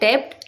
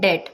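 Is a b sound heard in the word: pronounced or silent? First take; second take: pronounced; silent. First: A b sound is heard before the final t. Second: No b sound is heard before the final t. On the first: The speaker calls it wrong. "बहुत से लोग बोलते हैं डेप्ट" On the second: The speaker calls it right. "बी silent होता है, सो इसकी correct pronunciation होती है डेट"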